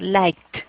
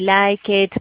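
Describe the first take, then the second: First: The ending is said as a plain 't' sound. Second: The ending is said as an extra 'id' syllable. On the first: The speaker calls it right. "Esa ed va a sonar como una T" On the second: The speaker calls it wrong. "yo no voy a decir eh, like it ... no, eso no se pronuncia así"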